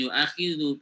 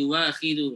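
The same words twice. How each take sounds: First: Yu'akhidu said as the incorrect version; wrong reading. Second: Yu'akhidu said as yu-wakhidu with a w glide; correct reading. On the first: Teacher contrasting wrong and right pronunciation, wrong take. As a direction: read yu'akhidu the wrong way on purpose. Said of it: "tapi yu'akhidu". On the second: Teacher giving the right pronunciation after the wrong one. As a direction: say yu'akhidu with a w sound between u and a. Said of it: "Bacanya bukan yu'akhidu". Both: Shown as a demonstration.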